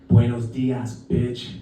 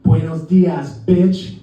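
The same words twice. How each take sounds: First: Low, understated challenge; cool confrontation. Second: Louder, punched-out mock threat; pissed off. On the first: Retold or imitated. Tourist taps shoe thief on shoulder, cool confrontation. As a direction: drop it low, deadpan to the thief. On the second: Fed-up tourist turns on street dog, pissed off. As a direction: throw it at the dog defiantly. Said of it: "I'm pissed off".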